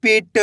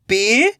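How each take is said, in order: First: "पिट" joined as one short word; blended word. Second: "पीठ" as separate sounds, rising "pi", then "ta"; split into sounds. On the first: Teacher giving learners the result, "पिट" blended. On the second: Teacher building the word for learners, "पीठ" sounded out. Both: Shown as a demonstration. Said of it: "तो मिलके बन जाएगा".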